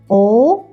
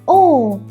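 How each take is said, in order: First: The pitch rises like a question. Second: The pitch falls sharply downward. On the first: "like question what?" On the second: "like you suddenly fall down"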